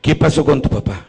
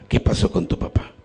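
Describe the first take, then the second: First: Said in the usual way. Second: Whispered repeat. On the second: Retold or imitated. Priest gently pressing the dying woman about her father, whispered.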